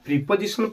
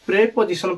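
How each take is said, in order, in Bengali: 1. প্রথম অংশে 'ee' স্বরধ্বনি আছে। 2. প্রথম অংশে 'eh' স্বরধ্বনি আছে। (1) "ସାର୍ ଏଟା ପ୍ରିପୋଜିସନ ପଢାଯାଏ ନା" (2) "ଏଟା ଆକ୍ଚୁଆଲି ପ୍ରେପୋଜିସନ ପଢାଯାଏ"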